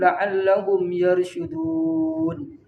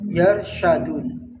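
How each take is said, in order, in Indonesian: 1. Vokal setelah bunyi 'sh' itu 'u'. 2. Vokal setelah bunyi 'sh' itu 'a'.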